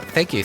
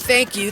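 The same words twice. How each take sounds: First: It is said calmly, with low, muted energy. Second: It is said with loud, exaggerated excitement. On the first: This is the usual, restrained reaction. "I've always been more subdued" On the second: The delight is being played up for show. "I really had to play up the clownery"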